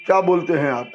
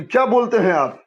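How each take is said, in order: First: Said in the usual way. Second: क्या raised in pitch, then falling through बोलते हैं आप; stress on क्या. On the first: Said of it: "ऐसे भी बोल सकते हैं". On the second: Shown as a demonstration. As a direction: lift the voice on क्या. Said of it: "शब्द का स्वर ऊंचा उठेगा". (क्या पर ज़ोर, स्वर ऊंचा)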